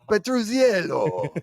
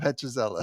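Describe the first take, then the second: First: The name is said in an Italian accent. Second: The name is said in a plain accent. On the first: The speaker calls it wrong. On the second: The speaker calls it right.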